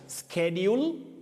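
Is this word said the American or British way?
American. The word has the American pronunciation. "in American and other regional varieties you'll hear of"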